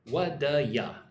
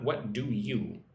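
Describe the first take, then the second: First: The word 'you' is reduced to 'ya'. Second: The word 'you' is said fully and clearly. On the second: "Not what do you"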